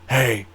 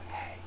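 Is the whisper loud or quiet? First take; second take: loud; quiet. First: It is a loud, booming whisper. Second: It is a soft, quiet whisper.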